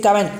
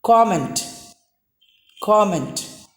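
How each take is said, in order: First: COMMENT as "kuh-ment"; wrong comment. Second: COMMENT as "kom-ent", round o; correct comment. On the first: Teacher shows what most of us say, comment as "cum-ent". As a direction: open "comment" with a "cum" vowel. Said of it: "That's wrong". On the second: Teacher gives the corrected comment, round "kom". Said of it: "It should be pronounced as". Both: Shown as a demonstration.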